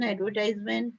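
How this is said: It is said in an American accent.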